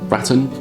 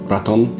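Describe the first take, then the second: First: It rhymes with the British way of saying baton. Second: It is said with a Spanish accent. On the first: "like it would rhyme with baton" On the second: "Spanish accent"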